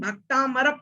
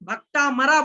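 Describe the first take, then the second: First: The word ends without an added 'aa' vowel. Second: The word ends with an added long 'aa' vowel. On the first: The speaker calls it right. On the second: The speaker calls it wrong.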